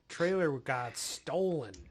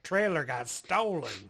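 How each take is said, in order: First: It is read in the speaker's normal voice. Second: It is read in a put-on regional accent.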